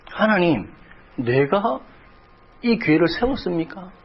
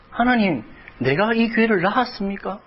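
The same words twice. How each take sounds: First: Lightly pleading, a touch higher; mild retold lament. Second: Higher, rising plea, 교회를 stretched out long; anguished cry to God. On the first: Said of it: "하나님을 원망도 했습니다". (살짝 원망하듯 하나님께 묻는 목소리) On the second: Retold or imitated. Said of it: "그렇게 부-, 울부짖었습니다". (높은 톤으로 하나님께 울부짖듯)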